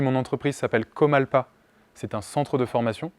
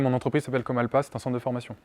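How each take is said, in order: First: Each word is pronounced clearly and distinctly. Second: The words are slurred and swallowed together. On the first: The listener understands it the first time. The speaker calls it right. "j'ai plus besoin de vous le faire répéter" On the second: The listener may need it repeated. The speaker calls it wrong. "J'ai mangé mes mots"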